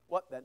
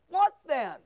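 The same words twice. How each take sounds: First: It is said flat, in a monotone. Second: It is said with lively, varied expression. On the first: The speaker calls it wrong. "That's boring, isn't it?" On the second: The speaker calls it right. "read the scriptures with expression"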